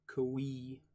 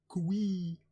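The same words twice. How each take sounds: First: Coo-ee in an even, level pitch; first attempt. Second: Coo-ee pitched high and loud, falling; second attempt. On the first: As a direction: say coo-ee evenly, as a tentative reading. Trying out an unfamiliar word. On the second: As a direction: call out coo-ee louder, higher, then drop. Second try at unfamiliar word. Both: Shown as a demonstration.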